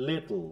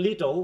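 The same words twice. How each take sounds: First: লিটল with no "o", ending in dark l; soft লিটল, t straight into l; narrow pronunciation. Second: লিটল as two full syllables, "li-tol"; broad pronunciation. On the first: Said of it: "ও সাউন্ডটা নাই". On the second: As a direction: give লিটল a clear vowel before l. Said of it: "অল হচ্ছে না". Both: Shown as a demonstration.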